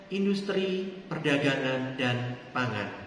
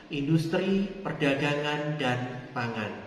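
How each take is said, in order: No difference in how they are said.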